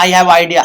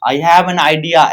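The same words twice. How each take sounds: First: Said in the usual way. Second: I have an idea, slow with the word an clearly sounded; teacher dictating I have an idea slowly; slow, careful model sentence. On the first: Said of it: "नहीं होता". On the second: Shown as a demonstration. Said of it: "एन का use करेंगे".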